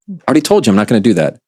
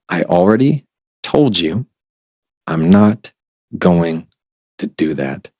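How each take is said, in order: First: It is said fast. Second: It is said slowly.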